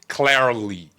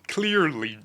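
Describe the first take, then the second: First: The first vowel sounds like the vowel in car. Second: The first vowel sounds like the vowel in clear. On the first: "If I want to say clarly, I will" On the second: "Clearly, George"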